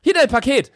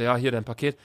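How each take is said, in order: First: Higher, louder, overly chipper handover; mock peppy delivery man; over-eager courier. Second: Said in the usual way. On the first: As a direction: hand it over with way too much energy. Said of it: "Gibt mir das so völlig mit Elan". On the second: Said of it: "normalerweise kommen so Paketboten".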